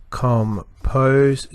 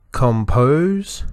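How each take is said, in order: First: Com, pose as two beats in compose; split into syllables. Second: Said in the usual way. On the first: Shown as a demonstration. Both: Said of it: "two syllables".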